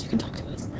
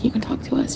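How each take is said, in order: First: Breathy whispered echo, much softer. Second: Said in the usual way. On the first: Retold or imitated. Streamer echoing family's words to viewers, whispering. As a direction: let the repeat fade to a whisper. Family's reassurance, echoed softly.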